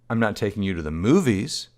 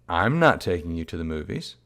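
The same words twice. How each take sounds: First: The stress falls on the word movies. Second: The stress falls on the word I'm. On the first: The child may be taken somewhere else instead. "the implication being she might be taking the child elsewhere" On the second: Someone else may take the child instead. "in which case maybe somebody else is taking the child"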